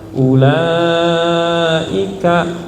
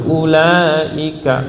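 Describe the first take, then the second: First: The long vowel is held and drawn out. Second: The long vowel is said short, not held. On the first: The speaker calls it right. "ada bendera, berarti panjang" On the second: The speaker calls it wrong. "bukan ulaika"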